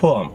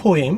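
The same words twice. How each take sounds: First: "poem" with a weak second vowel, po-um; correct pronunciation. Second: "poem" with a clear "im" ending, po-eem; mispronunciation. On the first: Teacher giving the correct way to say it. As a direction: say "poem" as po-um, falling. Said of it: "The correct way to say it". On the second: Teacher showing how some people say it, mispronounced. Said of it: "some people say poem". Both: Shown as a demonstration.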